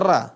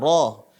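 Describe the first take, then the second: First: The vowel is light and sounds like a. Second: The vowel is heavy and sounds like o. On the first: The speaker calls it wrong. "Nggak dibaca ra" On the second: The speaker calls it right. "Ini adalah bunyi o, ro"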